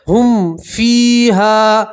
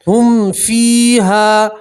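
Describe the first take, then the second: Both takes have the same delivery.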